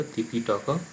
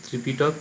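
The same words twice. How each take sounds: First: ত্রিপিটক said as তিপিটক, without the r; Prakrit form. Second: Said in the usual way. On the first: Shown as a demonstration. Teacher shows students the form তিপিটক. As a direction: drop the r-phala and say তিপিটক. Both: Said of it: "ত্রিপিটক রফলা চলে গেল".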